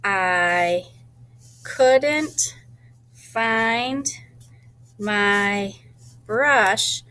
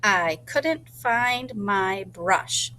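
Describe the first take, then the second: First: Each word set apart with pauses, a little louder; counting the words by saying each one alone; one word at a time. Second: Slow sentence. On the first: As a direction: tap out every word separately. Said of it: "add my lines to make sure". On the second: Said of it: "able to remember what it is". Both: Shown as a demonstration.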